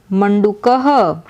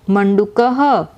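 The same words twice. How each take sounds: The two takes are said the same way.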